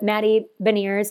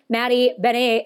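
First: The surname is said with a plain English pronunciation. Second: The surname is said with a French-style pronunciation.

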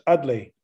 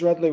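First: The name begins without any R sound. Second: The name begins with an R sound.

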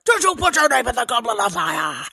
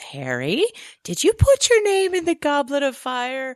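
First: It is said aggressively and loudly. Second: It is said calmly and quietly.

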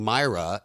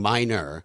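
First: The name is said like Myra. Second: The name is said like Minor. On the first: "I've been saying her name wrong" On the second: "I've been saying her name wrong"

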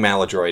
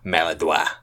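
First: The word is pronounced with an American sound. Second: The word is pronounced with a French sound. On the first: The speaker calls it right. "I think Maladroit is the common pronunciation" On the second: The speaker calls it wrong. "usually like French people, French Canadians ... which I just don't think is right"

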